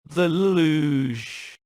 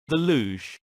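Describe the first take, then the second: First: It is said with the strongest disgust. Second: It is said with little disgust.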